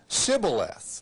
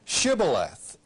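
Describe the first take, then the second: First: The word begins with an 's' sound. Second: The word begins with an 'sh' sound. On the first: The speaker calls it wrong. "for they could not pronounce it correctly" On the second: The speaker calls it right. "Say now, Shibboleth"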